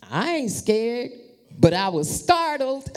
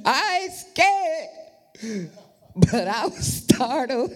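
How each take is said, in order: First: Said in the usual way. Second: High, slow teasing echo; a higher, drawn-out playful mock of the son; mocking his excuse. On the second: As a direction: tease him with his own line. Mocking son's words.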